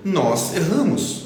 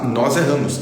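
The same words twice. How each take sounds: First: "Nós erramos" drawn out slowly and higher; slow and gentle. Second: Said in the usual way. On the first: Shown as a demonstration. ("Nós erramos" dito devagar, sem julgamento) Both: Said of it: "não tô falando isso num tom de julgamento".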